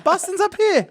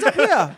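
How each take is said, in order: First: "Boston's up here" pitched way up; squeaky high insistence. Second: Said in the usual way. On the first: Shown as a demonstration. Correcting co-hosts about where Boston is, squeaky high. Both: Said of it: "pointing Boston on a map".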